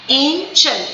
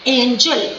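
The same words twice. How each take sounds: First: angel as ain... jel, both syllables full; two separate stresses. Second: Said in the usual way. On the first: Shown as a demonstration. Teacher demonstrating two syllables, angel split in two. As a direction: give angel two distinct beats. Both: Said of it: "दो बार करेंगे".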